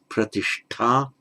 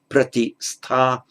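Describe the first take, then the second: First: The middle hissing sound is a retroflex sh. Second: The middle hissing sound is a plain s. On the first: This is the form after the regular sound change. "becomes pratishta" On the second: This is the underlying form before the sound change. "So pratistha, by regular uh, sandhi in Sanskrit"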